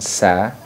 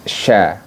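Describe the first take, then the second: First: The first sound is a plain s. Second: The first sound is a sh. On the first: "Tha bukan sa" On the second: "bukan sya"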